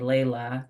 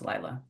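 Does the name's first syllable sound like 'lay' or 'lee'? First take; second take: lay; lee. First: The first syllable sounds like 'lay'. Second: The first syllable sounds like 'lee'. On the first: This is how Americans read the spelling. "according to the American perception, it is definitely Layla" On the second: This is how Brazilians say the name. "in the Brazilian language of Portuguese, that's pronounced Lila"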